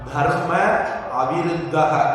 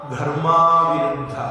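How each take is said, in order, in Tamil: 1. இரண்டு சொற்களும் தனித்தனியாக சொல்லப்படுகின்றன. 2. இரண்டு சொற்களும் ஒரு நீண்ட உயிரெழுத்தாக இணைகின்றன.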